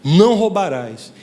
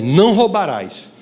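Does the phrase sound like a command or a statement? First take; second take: command; command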